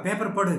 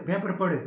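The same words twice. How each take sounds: Both takes have the same delivery.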